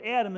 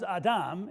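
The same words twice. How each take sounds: First: Said in the usual way. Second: Adam said ah-DAHM with open ah vowels; Hebrew pronunciation. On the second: Shown as a demonstration. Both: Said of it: "in Hebrew, the word Adam is".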